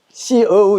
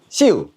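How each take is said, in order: First: An extra middle vowel comes before the u. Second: The vowel glides straight into u, short. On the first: "북경식 발음이 됩니다" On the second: "북경 발음이 아닌 변방 발음이고요"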